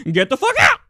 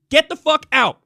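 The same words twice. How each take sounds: First: High, loud put-on tough-guy shout; hammed-up macho shout, laughing at himself; mock macho yell. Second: Shouted high until the voice cracks; cracking yell while telling them to leave. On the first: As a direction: redo the cracked yell as a would-be macho man. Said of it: "Hard to sound like a macho man". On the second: Real, not acted. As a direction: yell it so hard the voice breaks. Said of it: "I like how my voice cracked there".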